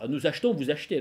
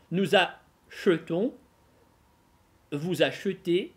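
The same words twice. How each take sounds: First: "nous achetons", "vous achetez" with the middle э dropped; common elided pronunciation. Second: "Nous achetons", "vous achetez" very slowly, middle э drawn out; teacher's slow model, voicing the e after "ch" in "achetons" and "achetez"; sounded schwa. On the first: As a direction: run "ch" straight into "t" in "achetons" and "achetez". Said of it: "Чаще всего встретите именно такое произношение". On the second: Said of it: "Только они будут представлять собой проблему". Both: Shown as a demonstration.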